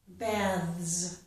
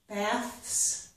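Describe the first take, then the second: First: The final th and s sounds are voiced. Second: The final th and s sounds are voiceless. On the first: "the two last sounds to voiced" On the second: "so they keep these last two sounds voiceless"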